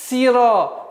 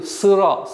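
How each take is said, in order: First: The vowel after s is a front 'ee' sound. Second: The vowel after s is a back Russian 'y'. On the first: The speaker calls it right. "такой резкий, плавный, быстрый переход на касру" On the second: The speaker calls it wrong. "не должно соответствовать звуку «ы»"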